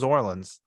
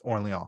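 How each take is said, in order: First: It is pronounced like the city New Orleans. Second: It is pronounced with a French-style sound. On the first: The speaker calls it wrong. "It's spelled like Orleans, like New Orleans" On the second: The speaker calls it right. "now all of a sudden it's Orleans"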